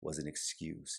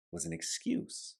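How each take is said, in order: First: Quiet repeat. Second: "was an excuse" pitched much higher, rising on "an"; high, incredulous "was an excuse"; emphatic first take. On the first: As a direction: let "was an excuse" fall to a near murmur. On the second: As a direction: lift "was an excuse" up high with a questioning rise. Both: Shown as a demonstration. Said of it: "Think about that for just a moment".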